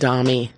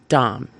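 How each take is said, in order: First: It is two syllables ending in 'ee'. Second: It is one syllable with an 'o' vowel. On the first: The speaker calls it wrong. "It rhymes with mommy" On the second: The speaker calls it right. "it's both pronounced dom"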